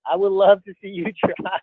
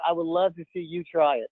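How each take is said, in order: First: Laughing. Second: Said in the usual way. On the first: Real, not acted. Teasing a friend about his icebreaker, laughing. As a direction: repeat it, cracking up on the last word. Repeats tease, breaks into laugh.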